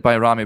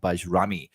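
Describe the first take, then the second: First: The second consonant is a 'y' sound. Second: The second consonant is a 'j' sound. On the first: The speaker calls it right. "it's pronounced uh, Bayrami" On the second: The speaker calls it wrong. "not Bajrami"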